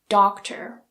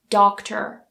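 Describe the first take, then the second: First: The final R sound is pronounced. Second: The final R sound is pronounced.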